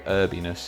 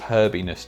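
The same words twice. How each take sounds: First: The word starts without any H sound. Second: The word starts with an audible H sound.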